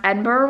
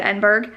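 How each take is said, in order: First: Said in the usual way. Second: "Edinburgh" said wrongly with a hard "burg" ending; mispronounced Edinburgh. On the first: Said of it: "would pronounce Edinburgh wrong". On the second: Retold or imitated. Reviewer quoting the narrator's slip, Edinburgh mispronounced as "burg". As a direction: end "Edinburgh" like "burg", not "burra". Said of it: "how she would pronounce Edinburgh wrong".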